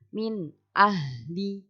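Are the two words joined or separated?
joined. The two words run together without a break. The speaker calls it right. "itu disambungkan"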